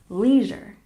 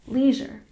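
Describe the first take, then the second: Both takes have the same delivery.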